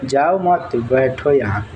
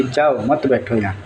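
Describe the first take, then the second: First: Slow, जाओ मत together, then बैठो यहाँ; pause after मत. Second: जाओ alone, मत बैठो यहाँ run together; pause after जाओ. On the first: Teacher showing what the other understood, slow with pause after मत. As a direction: stretch जाओ मत, break before बैठो. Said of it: "अगला क्या समझ लिया है". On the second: Teacher restating what was meant, pause after जाओ. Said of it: "हम तो बोलते कि". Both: Shown as a demonstration.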